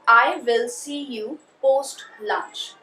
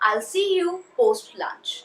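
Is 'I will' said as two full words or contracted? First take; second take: full words; contracted. First: I and will are said as separate full words. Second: I and will are clipped together into one syllable.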